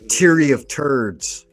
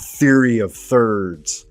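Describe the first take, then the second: First: It is said in an Irish accent. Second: It is said in a plain accent.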